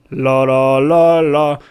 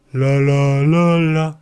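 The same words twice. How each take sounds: First: Loud, well-placed sung la la with chest; full-bodied la. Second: Thin la without body. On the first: Coach showing students the right la with body. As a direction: sing it round and grounded. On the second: Coach showing students the wrong, bodiless la. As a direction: sing it thin, larynx up. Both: Shown as a demonstration. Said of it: "la segunda se escucha con cuerpo".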